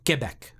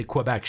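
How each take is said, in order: First: French-style "Keh-bec", no w; Quebec with a "keh" start. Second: Anglicized "Kwuh-bec" for Quebec; Quebec with a "kwuh" start. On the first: Retold or imitated. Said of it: "that's not how you say it". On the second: Shown as a demonstration. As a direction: say Quebec with a w after the k. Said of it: "when I would say".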